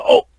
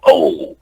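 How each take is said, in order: First: Short "Oh" from onlookers; imitated wipeout reaction. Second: Drawn-out "Oh" from onlookers; imitated crowd reaction. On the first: People watching someone wipe out react, imitated short "Oh". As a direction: imitate spectators at a wipeout, a brief "Oh". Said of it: "kinda like that". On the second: People watching the stunt demonstration react, imitated long "Oh". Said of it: "how someone's watching something?".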